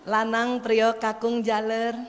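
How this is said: The names are called softly and gently.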